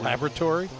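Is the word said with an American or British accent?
American. It is said with an American accent.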